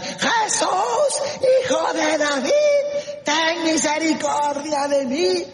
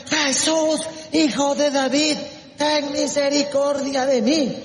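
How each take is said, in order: First: Very high, drawn-out cry for mercy; shrieked plea. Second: High-pitched plea called out; crying out. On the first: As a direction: scream out to be heard over the crowd. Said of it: "Y se puso a chillar". (chillido suplicante) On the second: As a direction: call out for mercy, voice raised. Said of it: "se puso a gritar". (clamor suplicante) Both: Acted.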